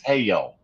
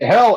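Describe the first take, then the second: First: The word is drawn out over several syllables. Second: The word is said as one short syllable. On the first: "her version is a polysyllabic word" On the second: "Hell is a single syllable word"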